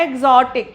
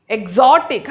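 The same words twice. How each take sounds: First: "exotic" as EEG-zotic, opening vowel stretched and stressed; wrong first-syllable stress. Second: "exotic" as ig-ZO-tic, stress on the second syllable; correct later stress. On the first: Teacher showing the mistake, stress on first syllable of "exotic". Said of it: "ये गलत pronunciation होगा". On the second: Teacher modelling the right word, stress on ZO in "exotic". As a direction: keep the first syllable of "exotic" short, punch ZO. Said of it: "हम ऐसा नहीं बोल रहे". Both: Shown as a demonstration.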